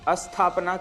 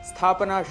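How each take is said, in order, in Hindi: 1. s से पहले एक अतिरिक्त स्वर सुनाई देता है। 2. शब्द सीधे s ध्वनि से शुरू होता है। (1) "अशुद्ध उच्चारण" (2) "शुद्ध उच्चारण है"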